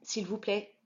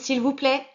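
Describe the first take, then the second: First: It is said softly. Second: It is said the loudest.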